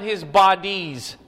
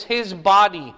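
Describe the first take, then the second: First: BODIES with the final -IES leaned on; stress on plural BODIES. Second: BODY hit loud on its first syllable; firm, louder singular BODY; stress on BODY. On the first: Teacher ruling out the wrong plural, stress on BODIES. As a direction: draw out the plural ending of bodies. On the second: Teacher telling class what to underline, stress on BODY. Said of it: "Underline this". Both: Real, not acted.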